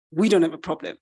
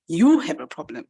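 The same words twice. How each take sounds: First: "We" hit hard, rest stepping down; stress on WE. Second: "you" hit hard, rest dropping; stress on YOU. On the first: Pig refusing to share the mouse's problem, stress on "We". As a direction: punch "We" to disown the problem. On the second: Pig handing the problem back to the mouse, stress on "you". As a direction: punch "you" and let the line fall. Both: Acted.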